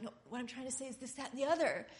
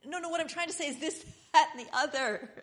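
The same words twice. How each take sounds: First: Quick insistent explaining, rising at the end; fast, pressing explanation, a bit higher; hurried insistence. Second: Higher, faster, exasperated repeat breaking into a laugh; frustrated second try, high and fast with a laugh; exasperated insisting. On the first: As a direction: rush to get the point across. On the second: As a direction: push harder, half laughing at yourself. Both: Retold or imitated. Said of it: "and you're like".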